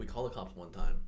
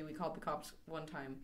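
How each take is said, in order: First: Louder confession. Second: Soft mock line. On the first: Retold or imitated. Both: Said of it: "You were gonna say".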